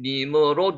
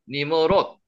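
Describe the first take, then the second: First: The name ends with a released D sound. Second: The name ends with a clipped T sound.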